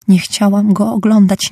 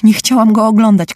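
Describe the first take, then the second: First: Crying out. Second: Screaming. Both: A narrator's reading. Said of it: "krzyczała pani Churchill".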